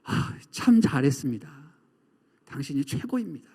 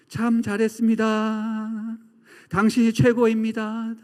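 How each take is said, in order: First: Lower-pitched, heartfelt compliment; sincere praise. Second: Slow, drawn-out ringing call; sustained level tone, last syllable held and fading; echoing praise. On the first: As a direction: praise them kindly and unhurried. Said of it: "이렇게 얘기해야 되는 거죠". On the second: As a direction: let the compliment resound like a mountain echo. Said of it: "메아리로 울려 퍼지는". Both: Acted.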